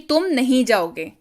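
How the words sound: It is said as a falling statement.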